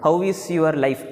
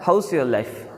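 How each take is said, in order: First: 'How' and 'is' are said as separate words. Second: 'How' and 'is' are joined into 'how's'. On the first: "ஹவு இஸ் your life அப்படின்னு கேட்டதா" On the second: "அந்த ஹவு இஸ் ரெண்டும் சேர்ந்து ஹவுஸ் அப்படின்னு வரையும்"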